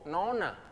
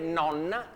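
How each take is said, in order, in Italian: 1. La n centrale è corta. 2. La n centrale è lunga. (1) "diciamo nonna" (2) "per dire nonna"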